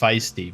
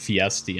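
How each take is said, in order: First: The word begins with a 'fice' sound. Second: The word begins with a 'fee' sound. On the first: The speaker calls it right. "normally you pronounce it right. It's feisty" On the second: The speaker calls it wrong. "that time you said fiesty"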